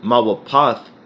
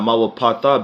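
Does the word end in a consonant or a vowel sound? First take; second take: consonant; vowel. First: The word ends on a consonant sound. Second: The word ends with an extra vowel sound. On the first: The speaker calls it right. "when you you pronounce it mawapath" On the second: The speaker calls it wrong. "not mawapatha"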